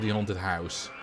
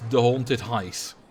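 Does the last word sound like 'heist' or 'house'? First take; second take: house; heist. First: The last word rhymes with 'mouse'. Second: The last word rhymes with 'iced'. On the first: It is the ordinary pronunciation. The speaker calls it right. "instead of the haunted house" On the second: It is a playful pronunciation for fun. The speaker calls it wrong. "I'll call this the haunted heist"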